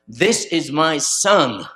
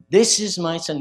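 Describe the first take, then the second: First: Slow, loud, drawn-out declaration; slow heavenly proclamation. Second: Loud proclaiming declaration; voice from heaven. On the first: Preacher voicing heaven at the baptism, slow and loud. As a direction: let each word ring out from above. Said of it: "other times it says". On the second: Preacher voicing heaven's call to the crowd, loud. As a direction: announce it to the whole crowd. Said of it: "that voice from heaven came". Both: Retold or imitated.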